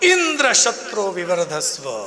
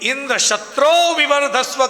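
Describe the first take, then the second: First: The word Indra is stressed. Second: The word shatro is lengthened and stressed. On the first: The speaker calls it wrong. "Indra શબ્દ ઉપર ભાર મૂક્યો" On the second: The speaker calls it right. "શત્રો શબ્દને લંબાવવો જોઈએ"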